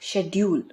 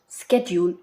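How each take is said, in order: First: It is said with a British pronunciation. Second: It is said with an American pronunciation. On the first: "but schedule in British English" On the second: "pronounced schedule in American English"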